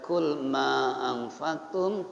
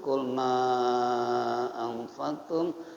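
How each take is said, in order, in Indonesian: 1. Huruf panjang itu ditahan selama dua ketukan. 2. Huruf panjang itu ditahan selama empat ketukan. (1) "Panjangnya boleh dua" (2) "boleh empat"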